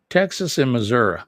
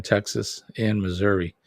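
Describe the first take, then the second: First: Louder, Missouri ending in "-uh" not "-ee"; Missouri as "Missoura". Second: Said in the usual way. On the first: Shown as a demonstration. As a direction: say Missouri with a final "uh". Repeats it with regional Missoura ending.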